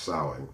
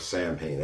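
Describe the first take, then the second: First: It is said unlike its spelling. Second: It is said as the letters suggest. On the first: The speaker calls it right. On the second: The speaker calls it wrong.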